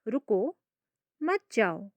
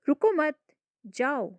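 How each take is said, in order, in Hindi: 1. विराम पहले शब्द के ठीक बाद आता है। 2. विराम दूसरे शब्द के ठीक बाद आता है। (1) "मैंने कहाँ पे विराम लिया" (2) "मैंने कहाँ पे विराम लिया"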